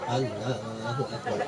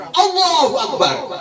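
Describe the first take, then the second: First: Very soft, low, slow Allahu Akbar; limp, spiritless. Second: High, drawn-out rousing Allahu Akbar; battle cry. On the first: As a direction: mumble it with no spirit at all. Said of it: "ndak semangat gitu". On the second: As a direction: call it out like a war commander. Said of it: "jadi komandan perang". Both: Shown as a demonstration.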